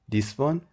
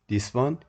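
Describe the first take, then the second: The two takes are said the same way.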